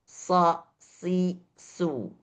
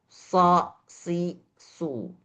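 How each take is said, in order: The two takes are said the same way.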